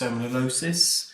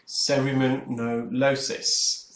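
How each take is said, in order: First: The word is said at normal speed. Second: The word is said slowly, syllable by syllable.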